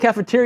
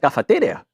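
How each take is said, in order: First: It is said in a plain American accent. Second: It is said in a put-on Spanish accent.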